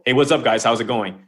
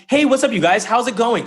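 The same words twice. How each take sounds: First: Said in the usual way. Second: High, loud, bouncy hello; upbeat greeting. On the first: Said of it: "Okay, I'm gonna be neutral". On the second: Shown as a demonstration. Coach showing listeners how to practice a greeting, upbeat and high. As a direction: greet them brightly, pitched well up. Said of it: "practice talking".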